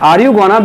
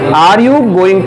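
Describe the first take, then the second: First: It is reduced to 'gonna'. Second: It is said in full as 'going to'. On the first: "गॉना म्हणून पाहू आपण" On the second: "गोईंग टू ज्याऐवजी"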